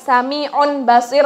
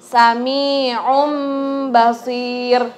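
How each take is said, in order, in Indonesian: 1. Bunyi nun biasa terdengar sebelum ba. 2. Mim yang ditahan dua ketukan sebelum ba. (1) "Jadi bukan sami'un basir lagi" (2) "Menjadi mim. Tapi ditahan, digunahkan selama dua ketukan"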